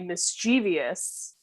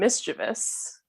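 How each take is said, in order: First: The word is said with four syllables. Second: The word is said with three syllables. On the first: The speaker calls it wrong. "when people say mischievous" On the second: The speaker calls it right. "but they mean mischievous"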